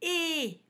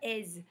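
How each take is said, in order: First: The ending is a plain vowel with no z. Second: The ending is a vowel followed by a z. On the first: The speaker calls it right. "on dit « et »" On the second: The speaker calls it wrong. "on ne dit pas « aise »"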